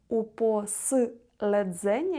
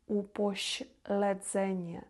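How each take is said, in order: First: The s sound before the l is hard. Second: The s sound before the l is soft. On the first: The speaker calls it wrong. "не упослedzenie" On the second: The speaker calls it right. "«Щ» – безпосередні, упоśledzenie"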